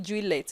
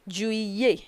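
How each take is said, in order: First: Juillet with the L and T sounded, "jwee-let"; mispronounced juillet. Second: Juillet with double L as a "yee" glide, "jwee-yay"; correct French juillet. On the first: Teacher warns students against this mistake, juillet said with hard L and T. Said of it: "don't pronounce it juillet". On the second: Teacher models it for students, juillet as "jwee-yay". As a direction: say juillet with silent T and a Y sound. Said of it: "you pronounce yi". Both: Shown as a demonstration.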